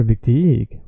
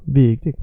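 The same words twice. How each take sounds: First: VIKTIG with the second syllable dragged long; wrong stretched ending. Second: VIKTIGT with a long VIK, short TIGT; correct first-syllable stretch. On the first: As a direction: stretch TIG in "viktig", first syllable short. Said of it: "never viktig". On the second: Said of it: "never viktig, viktigt". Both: Shown as a demonstration.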